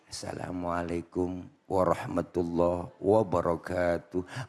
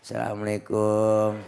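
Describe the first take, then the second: First: It is said like a Quran reciter's greeting. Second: It is said unclearly, in a mumble.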